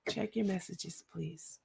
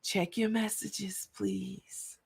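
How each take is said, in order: First: Soft, meek murmur fading away on please; real quiet. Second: Quiet, meek, almost a whisper on please; mock meek quiet. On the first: Retold or imitated. Imitating the accuser turning quiet and humble. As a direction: go small and hushed, mock-humble. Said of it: "She got real quiet and said". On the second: Mocking the threatening lady gone meek, softly. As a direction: shrink into a small polite murmur. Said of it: "the same lady who was up here threatening people gonna say".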